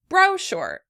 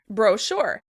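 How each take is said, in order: First: The stress is on the first syllable. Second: The stress is on the second syllable. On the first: "In British English, this word would be pronounced brochure" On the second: "the stress is on the second syllable"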